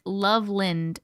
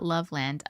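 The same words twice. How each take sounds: First: Loveland with a reduced second syllable, LUV-lind; local pronunciation. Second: Loveland with a full "land" ending; spelling pronunciation. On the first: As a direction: say Loveland with the ending weakened to "lind". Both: Shown as a demonstration. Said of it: "Said like Loveland, not Loveland".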